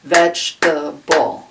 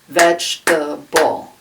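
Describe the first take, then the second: First: The word is said with three syllables. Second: The same.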